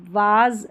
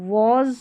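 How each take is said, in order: First: वाज with a long "aa"; wrong open a vowel. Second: Was said as "woz"; rounded o vowel. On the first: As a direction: say वाज as "vaaz". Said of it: "वाज नहीं पढ़ेंगे". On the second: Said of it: "was पढ़ना है". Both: Shown as a demonstration.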